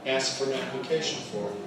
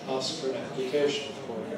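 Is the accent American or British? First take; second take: American; British. First: It is said in an American accent. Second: It is said in a British accent. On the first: "American English"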